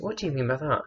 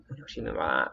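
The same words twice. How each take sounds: First: Asked again, pitched up in confusion. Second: Hushed, low confused query; puzzled low question. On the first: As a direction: lift it up, genuinely baffled now. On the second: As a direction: lower and softer, quietly puzzled. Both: Retold or imitated. Repeats the question twice.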